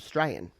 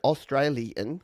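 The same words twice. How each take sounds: First: The first syllable is dropped entirely. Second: The first syllable is clearly pronounced.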